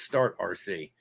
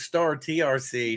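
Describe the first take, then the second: First: It is said as three parts: Start, R, C. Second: It is said as four parts: Star, T, R, C. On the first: The speaker calls it wrong. "I always thought it was Start R C" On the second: The speaker calls it right. "I found out it was Star T R C"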